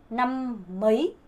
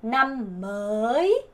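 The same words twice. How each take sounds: First: "남 머이" slow, with "머이" shorter and rising; slowed which-year pronunciation. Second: "남 머이" very slow, "머이" long and rising; slowed new-year pronunciation. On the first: Teacher giving the contrasting take slowly, shorter vowel. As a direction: separate the words and shorten the vowel in "머이". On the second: Teacher slowing down so learners hear the difference, drawn out. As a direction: stretch "머이" right out, climbing at the end. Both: Shown as a demonstration. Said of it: "차이 느껴지시죠".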